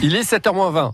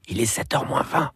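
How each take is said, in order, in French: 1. Dit à voix normale, plutôt forte. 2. Dit doucement, à voix basse.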